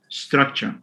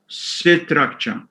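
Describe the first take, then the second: First: The opening consonant cluster is said without vowels. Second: A vowel breaks up the opening consonant cluster. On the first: The speaker calls it right. "not structure" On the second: The speaker calls it wrong. "insert a vowel after the first C to make it structure"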